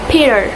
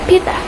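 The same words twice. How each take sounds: First: American accent, with the T flapped like D. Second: British accent, with a clear crisp T sound. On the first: "U S"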